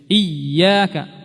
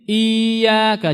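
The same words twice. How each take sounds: First: The doubled y is pressed hard and clearly. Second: The first vowel is drawn out, y not doubled. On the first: The speaker calls it right. "Ya, begitu bagus" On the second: The speaker calls it wrong. "kalau tidak kita jelaskan tasydidnya menjadi iyyaka, jadi mat ya"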